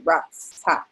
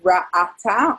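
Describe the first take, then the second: First: No vowel comes between the first 'ah' and 't'. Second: Two 'ah' vowels come one right after another. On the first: "Otherwise, it'd be ra'ta" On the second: "you have two ah sounds in a row"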